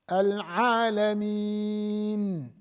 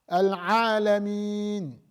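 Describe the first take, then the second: First: The final N sound is held briefly. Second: The final N sound stops sharply. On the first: The speaker calls it right. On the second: The speaker calls it wrong.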